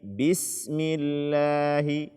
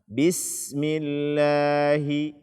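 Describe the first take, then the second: No difference in how they are said.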